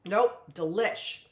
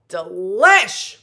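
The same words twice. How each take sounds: First: Said in the usual way. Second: "Delish!" called out much louder with relish; excited exclamation. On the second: Pretend. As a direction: shout out "Delish!" as if the taste thrilled you.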